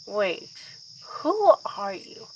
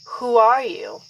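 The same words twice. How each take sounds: First: A guarded first who are you to the stranger; puzzled question. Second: Louder, firm repeat of who are you; sternly repeating who are you to the impostor; demanding question. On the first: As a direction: ask it startled, taking stock. Confronts a stranger. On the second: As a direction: press the stranger for an answer. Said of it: "So I ask again". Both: Acted.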